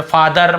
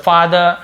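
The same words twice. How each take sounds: First: फादर with a full R at the end; final R sounded. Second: फादर ending in 'duh', no R; silent R. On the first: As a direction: pronounce the last R of फादर. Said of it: "ऐसे र को पूरा नहीं बोलते". (फादर का आख़िरी र पूरा) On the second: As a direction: drop the final R of फादर. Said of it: "र थोड़ा silent होता है". (फादर का आख़िरी र silent) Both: Shown as a demonstration.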